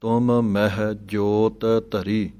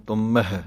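First: ਤੁਮ ਮਹਿ with each m said apart, slowly; separate m sounds. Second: ਤੁਮ ਮਹਿ with both m sounds run together; wrong joined m. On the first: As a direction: keep ਤੁਮ and ਮਹਿ distinct. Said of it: "ਦੋਵੇਂ ਮੰਮਿਆਂ ਨੂੰ ਇਕੱਠਿਆਂ ਨਹੀਂ ਬੋਲ ਦੇਣਾ". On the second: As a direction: blur ਤੁਮ ਮਹਿ into one word. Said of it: "ਏਦਾਂ ਨਹੀਂ ਬੋਲ ਦੇਣਾ". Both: Shown as a demonstration.

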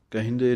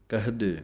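First: ਕਹਿੰਦੇ with nasal ਹਿੰ; wrong reading demo. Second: ਕਹਦੇ plain, no nasal; correct reading. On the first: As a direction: show the mistake ਕਹਿੰਦੇ, kehinde. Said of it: "ਕਹਿੰਦੇ ਨਹੀਂ ਬੋਲ ਦੇਣਾ". (ਗ਼ਲਤ ਉਚਾਰਣ ਕਹਿੰਦੇ) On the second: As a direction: say ਕਹਦੇ as kahde. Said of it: "ਕਹਿੰਦੇ ਨਹੀਂ ਬੋਲ ਦੇਣਾ ਇਹਨੂੰ". (ਸਹੀ ਉਚਾਰਣ ਕਹਦੇ) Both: Shown as a demonstration.

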